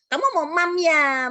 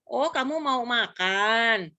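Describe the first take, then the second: First: Put-on high, loud, slow cooing to a toddler; parental baby talk. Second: Put-on slow, drawn-out question to a toddler; correcting parent. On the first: Parent asking a toddler about food, exaggerated baby talk. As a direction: copy a toddler's cadel talk, drawn out. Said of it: "kita orang tuanya ikutan". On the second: Parent correcting a toddler's word for eating, slow clear speech. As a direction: gently model the proper word MAKAN, stretched. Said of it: "yang harus ngebenerin".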